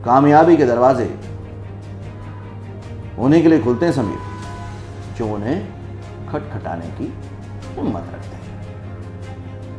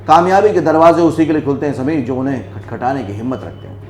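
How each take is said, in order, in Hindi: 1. यह पंक्ति धीरे और रुक-रुककर, गुस्से में बोली गई है। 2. यह पंक्ति बिना रुके तेज़ी से बोली गई है। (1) "मैंने इसको बहुत स्लोली, आराम से, टाउंटिंग करते हुए और एक गुस्से में बोला" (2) "मैं अब स्पीड में नहीं बोलूंगा"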